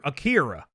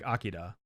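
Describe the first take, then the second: First: The middle consonant is an English R sound. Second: The middle consonant is a tap like a D. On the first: This is how it is said in America. "Akira is how we say it here in, in America" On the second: This is how Japanese speakers say it. "it sounds more like a D when it's pronounced by um by the uh, Japanese speakers"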